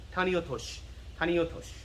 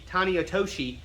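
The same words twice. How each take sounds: First: "tani otoshi" ending in a quick "sh", no vowel; short final sh. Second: "tani otoshi" with a voiced "shee" ending; full final shi. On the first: Teacher showing the sh is short, clipped ending. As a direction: cut "otoshi" off at "tosh". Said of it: "the sh is kinda short". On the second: Teacher pointing to that last shi, fully pronounced ending. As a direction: sound out the last vowel of "otoshi". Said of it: "And that last shi". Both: Shown as a demonstration.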